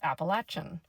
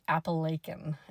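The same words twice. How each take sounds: First: It is the pronunciation used further south. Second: It is an odd pronunciation from Pennsylvania. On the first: This is how people deeper south say it. "you get more into West Virginia and deeper south, it's Appalachian" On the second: This is how someone from Pennsylvania said it. "someone that pronounced it Appalachian, and I think they were in P A"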